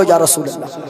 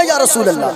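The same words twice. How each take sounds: First: Low, steady call of या रसूल अल्लाह with hands raised; devotional call. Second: Sway and sing out या रसूल अल्लाह; swaying ecstatic call. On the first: Preacher leads crowd with hands raised, steady devotional call. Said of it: "जरा हाथों को उठाकर बोलो". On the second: Preacher has crowd sway as they chant, ecstatic call. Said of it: "और झूम कर बोलो". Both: Shown as a demonstration.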